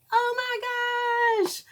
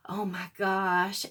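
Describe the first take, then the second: First: Slow, very high thrilled squeal; drawn-out swooning oh my gosh. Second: Said in the usual way. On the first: Real, not acted. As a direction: squeal over the beautiful red. Admiring beautiful red.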